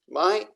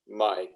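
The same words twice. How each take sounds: First: The pitch stays high. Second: The pitch stays low.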